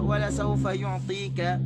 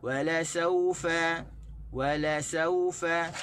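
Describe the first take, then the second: First: "wala saufa" stressed as usually misread; wrong stress in "wala saufa"; common wrong stress. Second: Slow "Wala saufa" with weight on "saufa"; slow it down, stress "saufa"; proper reading of "Wala saufa"; correct stress. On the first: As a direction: say it the usual careless way. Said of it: "kita biasa baca". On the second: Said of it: "sebutan kita tu salah". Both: Shown as a demonstration.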